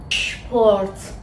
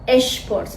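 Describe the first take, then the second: First: The word starts directly with the sh sound. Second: A short vowel comes before the sh sound. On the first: The speaker calls it right. "میگیم شپورت" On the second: The speaker calls it wrong. "نمیگیم"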